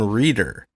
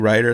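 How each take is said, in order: First: The first vowel sounds like 'ee'. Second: The first vowel sounds like 'eye'. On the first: The speaker calls it wrong. "which is not an unusual mispronunciation of my name" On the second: The speaker calls it right. "it's actually Ryder"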